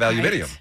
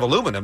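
First: It is said the British way, with five syllables. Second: It is said the American way, with four syllables. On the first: "they have aluminium" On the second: "they don't have aluminum"

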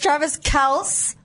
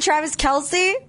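First: The surname uses the family's original pronunciation. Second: The surname uses the widely used popular pronunciation. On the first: This is the family's real name. The speaker calls it right. "It's Travis Kelce" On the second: This is how everyone says the name. The speaker calls it wrong. "His name really isn't Travis Kelce"

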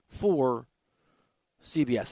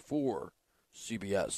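First: It is said in his normal, higher voice. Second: It is said in a lower voice.

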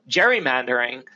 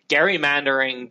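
First: The first G is soft, as in 'gem'. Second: The first G is hard, as in 'go'.

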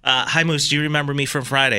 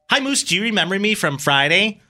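First: It is read in the speaker's ordinary voice. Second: It is read in a put-on character voice.

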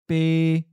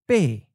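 First: The syllable stays level at mid pitch. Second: The syllable falls from a high pitch. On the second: "In the common southern accent, the eighth tone is often of a high falling tone"

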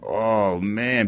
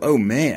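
First: It sounds negative and resigned. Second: It sounds positive and upbeat.

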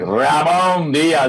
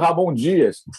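First: It sounds Argentine, with strong rolled Rs. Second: It sounds Brazilian, with soft Brazilian Rs.

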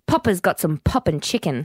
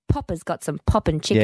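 First: The p sounds are clean, without breath pops. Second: The p sounds carry audible breath pops. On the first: "That was with a popper" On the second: "you can hear the pops"

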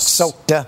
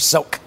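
First: The final D sound is pronounced. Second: The final D sound is dropped. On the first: "Not soaked" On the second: "Maybe she was saying the D silent"

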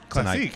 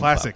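First: The word is pronounced the French way. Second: The word is pronounced the English way.

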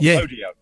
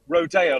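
First: It is pronounced unlike the Rodeo Drive version. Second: It is pronounced as in Rodeo Drive. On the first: The speaker calls it right. "not rodeo" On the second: The speaker calls it wrong. "You said like rodeo, like rodeo drive"

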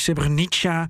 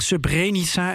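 First: It is pronounced closer to the original language. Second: It is pronounced in the Dutch-style way. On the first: This is how the name really is. The speaker calls it right. "het is Srebrenica" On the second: This is how the speaker habitually says it. The speaker calls it wrong. "Ik zeg Srebrenica"

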